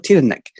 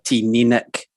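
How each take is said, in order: First: The middle syllable sounds like nuh. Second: The middle syllable sounds like knee. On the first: The speaker calls it wrong. "I always go Tina Nick" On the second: The speaker calls it right. "that middle bit's supposed to be knee"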